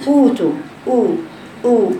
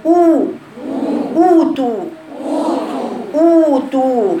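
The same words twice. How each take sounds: First: «أوتو» قصيرة بضم ناقص; انطق «أوتو» دون إتمام الضمة; ضمة خاطئة. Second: «أوتو» عالية النبرة بضم محكم; مد «أوتو» بشفتين مضمومتين; ضمة صحيحة. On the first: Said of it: "الخطأ". («أوتو» مقتضبة ورخوة الشفاه) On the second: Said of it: "هذا هو الصحيح". («أوتو» ممتلئة وممتدة للأمام) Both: Shown as a demonstration.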